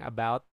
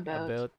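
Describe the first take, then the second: First: It is said with a standard American vowel. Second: It is said with a Canadian-style vowel. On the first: "like instead of saying about" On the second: "they say it like about"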